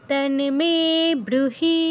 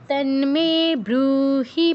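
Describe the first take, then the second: No difference in how they are said.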